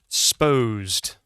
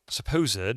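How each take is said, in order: First: The first syllable is dropped entirely. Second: The first syllable is fully pronounced. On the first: "you'll hear people go sposed" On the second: "spelled like that"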